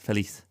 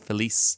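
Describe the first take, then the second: First: The final z sounds like th. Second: The final z sounds like an s. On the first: The speaker calls it right. "but really it's" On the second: The speaker calls it wrong. "you might think it's"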